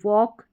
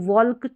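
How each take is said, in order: First: The L sound is left out entirely. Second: The L sound is pronounced before the K. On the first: The speaker calls it right. "एल silent रखेंगे" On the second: The speaker calls it wrong. "नहीं पढ़ेंगे"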